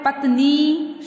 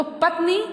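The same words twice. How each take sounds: First: "पत्नी" as pat-neee, ending stretched; long final ee. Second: "पत्नी" as patni, ending short; short final i. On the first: Teacher shows the correct spelling, "पत्नी" with drawn-out ee. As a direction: say "पत्नी" holding the last vowel long. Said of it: "शुद्ध शब्द है". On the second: Teacher reads the misspelt word, "पत्नी" with short final i. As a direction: say "पत्नी" with a brief last vowel. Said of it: "अशुद्ध लिखा हुआ है". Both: Shown as a demonstration.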